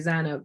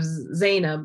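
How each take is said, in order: First: The name has a softer vowel sound. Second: The name has its full vowel sound. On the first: This is how Pakistanis say the name. "we'll say Zanab ... we sort of make everything a little softer, the vowel sound" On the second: This is the usual Arabic way of saying it. "instead of Zainab"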